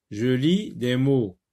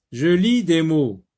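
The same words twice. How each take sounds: First: Said in the usual way. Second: Louder take of "Je lis des mots"; loud title. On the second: Shown as a demonstration. Teacher announcing the reading task, loud. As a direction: call out the title firmly.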